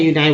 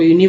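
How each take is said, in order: First: यूनाई ending like "eye"; "yoo-nye" reading. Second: यूनी ending in a long ee; "yoo-nee" reading. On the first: Teacher giving the other reading of UNI, यूनाई with eye. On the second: Teacher giving first reading of UNI, यूनी with ee. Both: Shown as a demonstration. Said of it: "यूनाई बोलते हैं".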